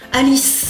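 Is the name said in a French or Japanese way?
French. It ends on a consonant, with no final vowel. "Ça se termine muet en fait, il n'y a pas de voyelle"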